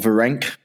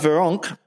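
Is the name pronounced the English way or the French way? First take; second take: English; French. First: The name is said with English pronunciation. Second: The name is said with French pronunciation. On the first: The speaker calls it wrong. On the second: The speaker calls it right.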